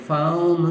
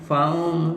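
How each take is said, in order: Both takes have the same delivery.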